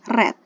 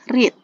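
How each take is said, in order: First: The vowel is short, like in 'red'. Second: The vowel is long, like in 'reed'. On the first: The action happened in the past. "Kalau kata kerja yang kedua, verb to itu kita membacanya dengan read" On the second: This is the base form of the verb. "untuk kata kerja yang pertama itu kita membacanya read"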